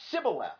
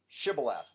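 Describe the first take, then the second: First: The word begins with an s sound. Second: The word begins with an sh sound. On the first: The speaker calls it wrong. "But he said Sibboleth" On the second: The speaker calls it right. "the difference between sh and s"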